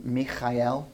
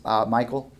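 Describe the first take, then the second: First: Michael said the Hebrew way, mee-kha-EL with a throaty kh; Hebrew pronunciation. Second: Said in the usual way. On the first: Shown as a demonstration. Preacher showing the congregation his name's Hebrew form, mi-kha-el. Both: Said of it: "My name is a Hebrew name".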